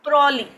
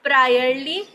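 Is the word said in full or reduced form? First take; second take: reduced; full. First: The word is said in a shortened form. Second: The word is said in its full form.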